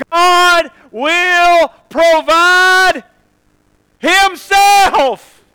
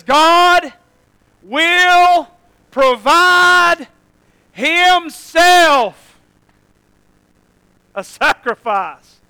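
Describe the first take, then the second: First: Very slow, high and loud; real slow. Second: High, loud, very slow proclamation; Abraham answering. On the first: Shown as a demonstration. Preacher repeating the line slowly for the congregation. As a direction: drag out each word. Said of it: "or again real slow". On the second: Acted. Abraham answering his son, solemn and ringing. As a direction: stretch out each word like a vow. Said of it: "looks back at him and says".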